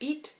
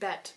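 First: The word has a long English ee vowel. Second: The word has an open French vowel. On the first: "I might still end up saying beat because I am a native English speaker" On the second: "usually pronounced bête"

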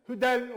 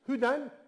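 First: The word ends with an l sound. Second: The word ends with an n sound. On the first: The speaker calls it right. "Hüdel oldu" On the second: The speaker calls it wrong. "Hüden olarak değil"

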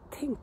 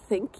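First: The th is a brief stop with full blockage. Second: The th is a continuous, hissing fricative. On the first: "it has a total blockage" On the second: "instead of think"

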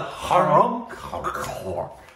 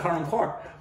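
First: It is split by a pause into two parts. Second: It is said smoothly as one word. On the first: The speaker calls it wrong. "It was the pause in between" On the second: The speaker calls it right. "I would pronounce it Haraamkhor"

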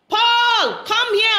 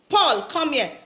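First: The call is said loudly, with a raised voice. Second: The call is said at a normal, calm volume. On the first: The caller is now serious. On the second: The caller is not yet serious.

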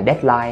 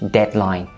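First: The middle and final sounds are left out. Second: The middle and final sounds are clearly pronounced. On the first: The speaker calls it wrong. "chứ không phải là deadline ha. Đọc như vậy thì thiếu các cái âm giữa và cái âm cuối của nó rồi" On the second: The speaker calls it right. "Các bạn nối lại đọc là deadline"

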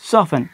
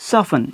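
First: The t sound is silent. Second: The t sound is silent.

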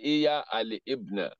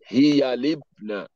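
First: The second word starts with its own separate vowel. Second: The words are linked with the vowel dropped. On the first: The speaker calls it wrong. "So don't say هي الابنة" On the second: The speaker calls it right. "you will have to remove amsat wasl as if it's not there"

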